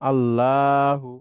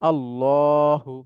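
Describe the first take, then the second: First: The l is followed by an 'a'-like vowel. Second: The l is followed by an 'o'-like vowel. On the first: "এই আল্লাহুটা এটা লা হয়ে যাবে" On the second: "ল"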